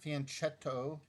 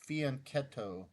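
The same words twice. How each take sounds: First: The middle consonant is a 'ch' sound. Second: The middle consonant is a 'k' sound. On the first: The speaker calls it wrong. "It's not fianchetto. Italians don't pronounce the C H with the ch sound" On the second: The speaker calls it right. "they pronounce it with a k sound. So it's fianchetto"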